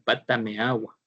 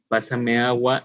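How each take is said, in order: First: The middle consonant is a t sound. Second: The middle consonant is an s sound. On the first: A child with a pronunciation difficulty says it. The speaker calls it wrong. "ellos van a decir" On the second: The phrase is said as adults say it. The speaker calls it right. "al momento de decir"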